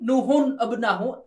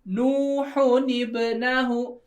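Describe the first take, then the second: First: The word after the nun starts with 'a'. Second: The word after the nun starts with 'i'. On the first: This follows the written spelling. The speaker calls it wrong. "tulisannya seperti ini" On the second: This is how the phrase is actually recited. The speaker calls it right. "tapi cara bacanya"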